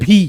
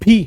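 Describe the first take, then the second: No difference in how they are said.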